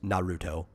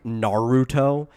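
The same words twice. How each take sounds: First: The name is said in a plain, casual way. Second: The name is said in an exaggerated, insistent way. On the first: This is how a normal person would say it. The speaker calls it right. "even just like casually no, just Naruto" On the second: This imitates how the club members insisted on saying it. The speaker calls it wrong. "So they were like Naruto"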